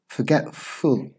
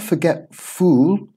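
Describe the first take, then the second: First: The last syllable has a reduced schwa vowel. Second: The last syllable has a full vowel. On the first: The speaker calls it right. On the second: The speaker calls it wrong.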